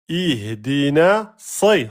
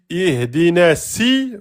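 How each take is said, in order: First: The s sound is heavy and emphatic. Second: The s sound is light and thin. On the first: The speaker calls it right. "Sad emphatique, kasra si" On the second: The speaker calls it wrong. "vous avez prononcé la lettre sin. Faute grave"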